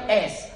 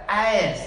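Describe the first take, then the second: First: S said as a short, simple ESS; short Australian S. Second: A S as a drawn-out AY-ESS; drawn-out American S. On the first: Explaining what Americans don't say, short Aussie S. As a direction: say the letter S briefly, undrawn. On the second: Imitating Americans spelling, drawn-out AY-ESS. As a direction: stretch A S into two gliding syllables. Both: Shown as a demonstration. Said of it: "They draw it out".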